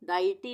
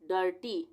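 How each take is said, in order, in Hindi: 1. पहला स्वर eye जैसी ध्वनि है। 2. पहला स्वर er जैसी ध्वनि है। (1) "डाइटी नहीं बोलेंगे इसको" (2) "डर्टी बोलेंगे"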